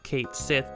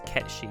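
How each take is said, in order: First: The name is said as 'Kate Sith'. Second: The name is said as 'Ket-shee'. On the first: It is read the way it is spelled in English. "In America, we just called it Kate Kate Sith because that's how it's spelled" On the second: It follows the original Gaelic pronunciation. "obviously the Gaelic pronunciation is Ketshi"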